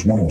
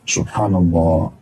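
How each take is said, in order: First: It is mumbled quickly and indistinctly. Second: It is said slowly and clearly. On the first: The words are rattled off without reflection. The speaker calls it wrong. "Bukan kayak orang kumur-kumur" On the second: The words are said with humility and reflection. The speaker calls it right. "Renungi maknanya"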